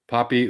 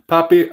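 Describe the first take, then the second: First: It is said in the speaker's usual accent. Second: It is said in a put-on Spanish accent.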